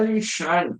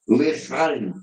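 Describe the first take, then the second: First: The middle consonant is a soft 'sh' sound. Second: The middle consonant is a throaty, rasping sound. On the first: The speaker calls it wrong. "não é Lishai" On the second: The speaker calls it right. "C H no hebraico tem som de R de carro"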